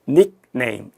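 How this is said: It is said with English stress and rhythm. "영어권 화자는 정확하게 닉네임 이렇게 발음을"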